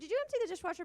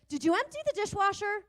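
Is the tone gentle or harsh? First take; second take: gentle; harsh. First: It is asked in a gentle, friendly tone. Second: It is asked in a harsh, accusing tone. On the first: It is just a simple question. The speaker calls it right. "a simple question" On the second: It starts a fight. The speaker calls it wrong. "the on-ramp to a fight"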